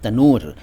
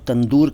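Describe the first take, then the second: First: The middle has only an 'n' sound: tanoor. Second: The middle has an 'nd' sound: tandoor. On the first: The speaker calls it right. "लेकिन ये सही शब्द है तनूर।" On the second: The speaker calls it wrong. "इसको आप लोग तंदूर कहते हैं।"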